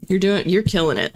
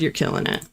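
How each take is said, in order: First: Said in the usual way. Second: Breathy whispered repeat of the praise. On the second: Real, not acted. Whispering praise to a viewer in chat, hushed. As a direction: drop it to a whisper.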